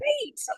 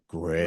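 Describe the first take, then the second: First: It is said enthusiastically, like Tony the Tiger. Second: It is said sarcastically, like an eye roll.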